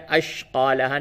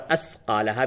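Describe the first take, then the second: First: An sh sound comes before the q. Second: An s sound comes before the q. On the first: "अशक़ालहा नहीं" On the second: "अस्क़ालहा भी नहीं होगा"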